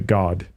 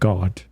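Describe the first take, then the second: First: It is said with an American vowel. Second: It is said with a British vowel. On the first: "normally in America we say God" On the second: "instead of God. more British"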